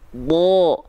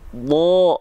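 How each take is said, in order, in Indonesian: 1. Vokalnya bunyi yang berat, seperti 'o'. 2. Vokalnya bunyi yang berat, seperti 'o'.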